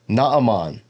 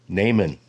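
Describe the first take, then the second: First: The name is said with Hebrew pronunciation. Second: The name is said with English pronunciation. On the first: "in Hebrew, his name is Naaman" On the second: "That's how most people in the English-speaking world pronounce this"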